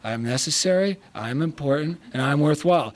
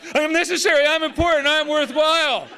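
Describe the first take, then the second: First: It is said quietly and half-heartedly. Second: It is said loudly like a drill sergeant.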